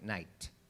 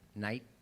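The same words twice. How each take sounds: First: The final t is crisply pronounced. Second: The final t is weak or dropped. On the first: "He ends it like night" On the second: "he doesn't end it like that"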